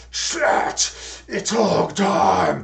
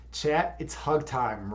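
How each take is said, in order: First: Slow, loud rasping wrestler bellow; rally the crowd like a pro wrestler; heroic rallying shout. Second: A hint of a gruff pro wrestler. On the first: Pretend. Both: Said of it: "gruff pro wrestler voice".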